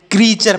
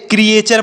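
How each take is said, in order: First: "क्रीचर" as kree-char, no separate e; correct pronunciation. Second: "क्रिएचर" broken into kri-e-char; common misreading. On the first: Teacher correcting the common misreading, right "क्रीचर". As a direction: say "क्रीचर" with a single long ee. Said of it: "क्रीचर पढ़ना है". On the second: Teacher quoting what many people read, misread "क्रिएचर". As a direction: say "क्रिएचर" with a separate e in the middle. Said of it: "बहुत सारे लोग इसे क्या पढ़ेंगे". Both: Shown as a demonstration.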